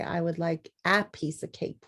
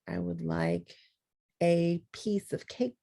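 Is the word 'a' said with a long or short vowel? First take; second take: short; long. First: The word 'a' has a short vowel sound. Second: The word 'a' has a long vowel sound. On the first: The speaker calls it wrong. "You don't say" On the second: The speaker calls it right.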